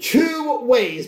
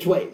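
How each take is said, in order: First: The two words are said separately and clearly. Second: The two words are blended into one syllable.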